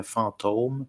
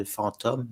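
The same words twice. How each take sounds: First: "fantôme" with a closed, long o, drawn out slowly; fantôme with the accent. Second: "fantôme" with an open, short o like in "comme"; fantôme without the accent. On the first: Showing Québécois speech keeps the circumflex, long closed ô. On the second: Explaining spelling without the circumflex, open o in fantôme. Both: Shown as a demonstration. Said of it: "Parce que en québécois".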